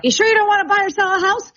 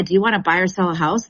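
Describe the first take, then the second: First: High, loud, fast desperate pitch; hammed-up pushy realtor calling after a fleeing buyer; eager pushy salesman. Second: Said in the usual way. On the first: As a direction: chase him down with the sales question. Agent chasing buyer down sidewalk.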